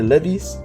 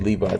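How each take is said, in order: First: The brand name is pronounced with foreign-sounding vowels. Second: The brand name is pronounced the usual way. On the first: This is how the customers said it. "They say levies" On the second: This is not how the customers said it. "They don't say Levi's"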